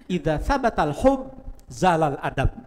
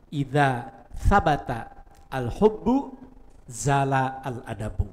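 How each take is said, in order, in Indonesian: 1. Kata-katanya disambung, akhiran i'rab-nya dihilangkan. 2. Setiap kata dibaca terpisah dengan akhiran lengkap. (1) "itu kaidahnya" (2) "bayangkan aja kalau yang belum bisa imla"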